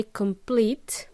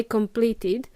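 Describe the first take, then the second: First: "complete" stopping on the T; no id ending. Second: "completed" with the added "id" syllable; id ending. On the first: Teacher contrasting tenses, "complete" without id. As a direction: say just "complete", no extra syllable. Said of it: "if we just say complete". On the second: Teacher contrasting tenses, "completed" with id. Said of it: "if we don't say completed". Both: Shown as a demonstration.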